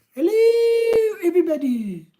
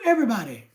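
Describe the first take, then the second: First: Much higher, sing-song hello; high squeaky greeting. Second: Said in the usual way. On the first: Retold or imitated. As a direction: pitch the hello way up like a cartoon. Reading a viewer greeting twice.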